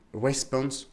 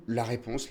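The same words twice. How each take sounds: First: "response" said slowly in an English accent, r like a w; "response" with a put-on English accent, r like a w. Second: Said in the usual way. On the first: Shown as a demonstration. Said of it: "Vous avez vu cet accent?". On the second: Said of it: "response en anglais".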